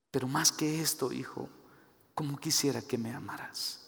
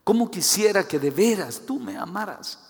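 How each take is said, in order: First: Soft, hushed plea for love; tender longing. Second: Higher, emphatic cry of longing; insistent, heartfelt appeal; earnest plea. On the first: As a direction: plead quietly, letting the voice sink. God's tender appeal to his child. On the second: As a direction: lift the voice and plead for love. God's plea repeated with more force. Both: Acted.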